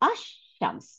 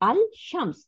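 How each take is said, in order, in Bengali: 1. l ধ্বনিটি মিশে যায় দ্বিত্ব sh ধ্বনিতে। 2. "shams"-এর আগে l ধ্বনিটি উচ্চারিত হয়। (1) "কিভাবে প্রোনাউন্সিয়েশন হবে? ... তখন আর লামটা উচ্চারণ করব না" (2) "দ্যাট ইজ আল শামস।"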